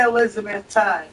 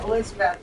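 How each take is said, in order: First: Elizabethton with the final T-O-N fully pronounced as "tun"; outsider pronunciation. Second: Elizabethton with the last T swallowed; local pronunciation. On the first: Showing how not to say the town, outsider pronunciation. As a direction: sound out the last T in Elizabethton. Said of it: "You don't say Elizabethton". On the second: Showing how townspeople say it, local pronunciation. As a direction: say Elizabethton locally, ending loose without a crisp T. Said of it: "that's how you say it". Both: Shown as a demonstration.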